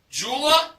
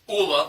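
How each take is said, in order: First: The word begins with a J sound. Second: The word begins with a vowel sound.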